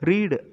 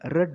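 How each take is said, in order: First: The vowel is long, like 'reed'. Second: The vowel is short, like 'red'. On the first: It is the present-tense form. The speaker calls it wrong. "read அப்படின்னு வாசிக்க கூடாது" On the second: It is the past-tense form. The speaker calls it right. "பாஸ்டன்ஸில் வாசிக்கிறப்ப read அப்படின்னு தான் வாசிக்கணும்"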